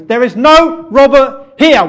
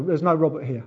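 First: Slow, high, furious yell; angry shout. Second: Said in the usual way. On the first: Acted. Stranger to a pestering wrong-number caller, angry shout. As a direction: bellow it down the phone, word by word. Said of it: "Son, that's anger".

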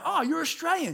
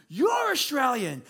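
First: High-pitched retold "oh" of recognition; imitated surprised greeting; pleasant surprise. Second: Drawn-out, raised-pitch mock amazement; slow, high imitated exclamation; delighted recognition. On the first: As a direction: act out spotting a fellow countryman, pitched right up. Retold surprise at meeting a compatriot. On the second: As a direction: stretch it out as the stranger's delighted reply. Stranger echoes the recognition back.

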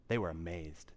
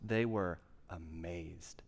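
First: Said in the usual way. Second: Drawn out slowly, lower and softer; slow, weighty emphasis. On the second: Shown as a demonstration. Preacher to congregation, stretching the words out slowly. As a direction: let each word land slowly.

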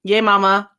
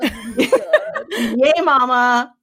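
First: Team cheer. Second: Cheering through a laugh, a bit louder. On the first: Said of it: "I thought everyone else would get on that". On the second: Host cheering to co-hosts, laughing through it. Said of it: "give us some team spirit". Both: Pretend.

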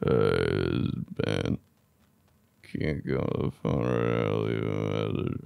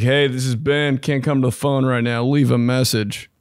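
First: Groggy voicemail. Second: Said in the usual way. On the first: Retold or imitated. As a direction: sound drunk and half sleeping on the message. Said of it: "Played it back. It was like". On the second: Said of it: "It's like".

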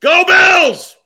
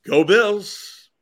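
First: Huge stadium yell of Go Bills; shouting. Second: Upbeat Go Bills cheer. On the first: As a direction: scream it from the stands. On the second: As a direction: say it like a fan. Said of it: "All right, we're ready". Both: Shown as a demonstration.

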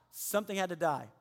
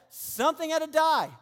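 First: Said in the usual way. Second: Higher and louder, leaning on die; forceful declaration. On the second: Acted. Pastor driving home the point to listeners, forceful.

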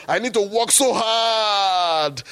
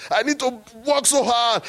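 First: Slow, raised mock whine with "so hard" drawn out; mock protest, first take. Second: Higher again, "work" leaned on; repeating the plea more insistently; mock protest, second take. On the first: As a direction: ham up the plea. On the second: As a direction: push the plea up further. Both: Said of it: "I said".

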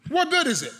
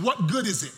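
First: Higher and louder second ask; preacher hammering the question; emphatic repeat. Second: Said in the usual way. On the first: Acted. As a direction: press the question home.

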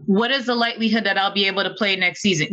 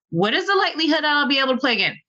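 First: Said in the usual way. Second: Higher and rushed, pressing harder; urgent repeat. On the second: Retold or imitated. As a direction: push the question in alarm. Presses surgeon again, more urgent.

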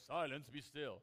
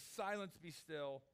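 First: Loud, booming mock God voice; put-on God voice. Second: Simple authority. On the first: Preacher shows the voice Jesus didn't use, mock God voice. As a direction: put on a grand God voice, louder. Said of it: "putting on his God voice". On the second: Jesus simply commands the wind and waves, with authority. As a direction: command it simply, first word raised. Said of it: "He just speaks with authority". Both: Shown as a demonstration.

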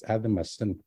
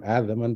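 First: "Adamasan" said softly, with the Cree TH dialect ending; TH dialect form. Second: "Adaman" said plainly, in the Cree Y dialect; Y dialect form. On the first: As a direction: give "Adamasan" as the TH dialect says it, a little softer. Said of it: "but it's Adamasan". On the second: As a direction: give "Adaman" as the Y dialect says it. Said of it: "it's not Adaman". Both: Shown as a demonstration.

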